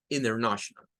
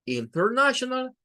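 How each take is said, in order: First: "international" said as "innernational", lower; American dropped T. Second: "international" with the T sounded, higher pitch; full T international. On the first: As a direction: drop the T after N in "international". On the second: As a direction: pronounce every T in "international". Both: Shown as a demonstration. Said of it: "diga international".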